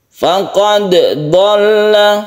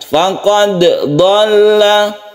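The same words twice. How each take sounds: The two takes are said the same way.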